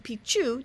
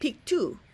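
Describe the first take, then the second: First: The middle consonant is a ch sound. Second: The middle consonant is a k sound. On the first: It means old pee-pee. "the way Westerners say it" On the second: It means old mountains. "the locals pronounce it Pictu"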